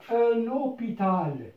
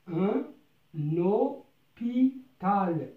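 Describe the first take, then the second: First: Said in the usual way. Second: "اوبيتال" stretched out slowly, syllable by syllable; slow teaching read. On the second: Shown as a demonstration. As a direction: draw out "اوبيتال" so learners catch each sound. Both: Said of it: "نقرأ هاد الكلمات".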